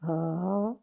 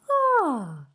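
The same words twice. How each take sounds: First: The sigh is pitched low. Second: The sigh is pitched high. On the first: "start low" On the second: "and higher"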